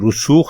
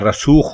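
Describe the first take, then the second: First: The first syllable has the vowel 'u'. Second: The first syllable has the vowel 'a'. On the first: The speaker calls it right. "रे के ऊपर पेश लगाकर" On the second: The speaker calls it wrong. "रे के ऊपर जबर लगाकर"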